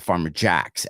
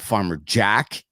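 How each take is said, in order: First: The name ends with an added s sound. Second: The name ends without an added s sound. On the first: This is how local people casually say it. "everyone says" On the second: This is the store's official name. "is the name"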